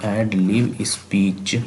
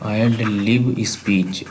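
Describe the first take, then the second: First: Whispered. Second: Said in the usual way. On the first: Shown as a demonstration. Teacher whispering the term to his students. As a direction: whisper एड lib speech slowly, no voice at all. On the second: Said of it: "एड lib speech repeated".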